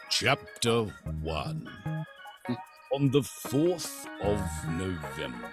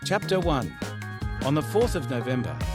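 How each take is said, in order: First: It is read slowly in a rich, dramatic voice. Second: It is read flat and even, with little inflection. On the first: "amazing voices but can't tell a story to save their life" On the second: "it's so monotone, it's like an A I voice"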